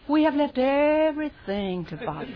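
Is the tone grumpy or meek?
meek. It sounds meek and reverent. The speaker is humble and respectful. "That wasn't Peter's nature"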